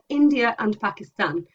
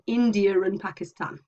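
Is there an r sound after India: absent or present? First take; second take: absent; present. First: Said plainly with no r sound after India. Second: Said fast with an r sound after India.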